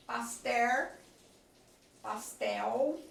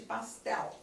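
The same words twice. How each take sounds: First: Pastel ending in a "u" sound, like "pastéu"; vocalized L. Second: Pastel ending in a clear tongue L; clear final L. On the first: Teacher showing the common L: pastel said as "pastéu". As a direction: turn the final L of pastel into a U. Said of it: "em vez de pastel". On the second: Teacher showing the careful form: pastel with a real L. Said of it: "seria a pronúncia do L". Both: Shown as a demonstration.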